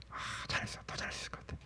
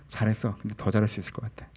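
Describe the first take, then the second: First: Whispered with a sigh; grudging self-praise. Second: Said in the usual way. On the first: Acted. Preacher mimicking grudging praise to oneself, sighing whisper. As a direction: sigh it out under your breath, barely voiced. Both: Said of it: "이런 식으로 얘기하면".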